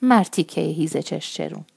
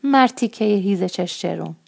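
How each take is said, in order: First: An understated indignant call at a leering man; angry loud voice. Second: Put-on child boldly calling out a borrowed insult; loud voice. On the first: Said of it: "با غضب نگاش کرد و با صدای بلند گفت". (با غضبی ملایم و صدای نسبتاً بلند) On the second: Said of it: "با صدای بلند گفتم". (تکرار ناسزا با صدای نسبتاً بلند) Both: A narrator's reading.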